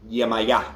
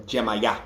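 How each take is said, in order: First: "Yemaya" with a Y opening; Lukumi pronunciation. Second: "Jemaya" opening on a J; J-variant pronunciation. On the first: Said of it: "So Lukumi". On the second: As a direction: say "Jemaya" with J instead of Y. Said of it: "or Jemaya". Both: Shown as a demonstration.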